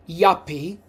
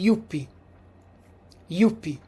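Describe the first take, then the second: First: Said in the usual way. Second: "yuppie" with oo, YOO-pee; "yuppie" said the Italian way; "yuppie" with an oo vowel. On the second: Shown as a demonstration. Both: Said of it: "in Italian we would say yuppie".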